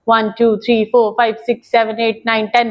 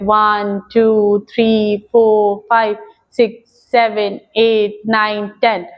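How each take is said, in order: First: The numbers are counted quickly. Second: The numbers are counted slowly.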